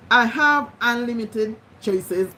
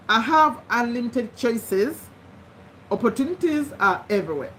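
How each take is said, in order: First: Slowly repeated affirmation; slow dictation. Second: Slowly dictated affirmation; slow dictation. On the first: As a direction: dictate it again, word by word. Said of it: "repeat it every day". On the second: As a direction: read it slowly so they can write. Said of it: "Number three". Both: Shown as a demonstration.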